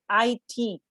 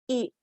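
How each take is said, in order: First: It is said letter by letter. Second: It is said as a single word. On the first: The speaker calls it right. "They are pronounced letter by letter" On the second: The speaker calls it wrong. "is not pronounced it"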